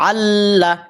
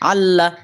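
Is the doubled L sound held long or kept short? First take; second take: long; short. First: The doubled L sound is held long. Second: The doubled L sound is kept short. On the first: The speaker calls it right. "এক হরকত লম্বা করে পড়বেন" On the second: The speaker calls it wrong. "আল্লাহ আল্লাহ যদি পড়েন তাহলে আপনার পড়ার সৌন্দর্য নষ্ট হয়ে যাবে"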